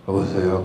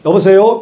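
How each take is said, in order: First: The voice is low, flat and drowsy. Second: The voice is raised high and lively. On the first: The person answering was asleep. The speaker calls it wrong. "여보세요 그러지 말고 왜 내가 잠자고 있는 표정을 목소리로 알려주냐" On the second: The person answering is alert and ready to help. The speaker calls it right. "솔 톤을 올려서 여보세요 이렇게 받아야 된다"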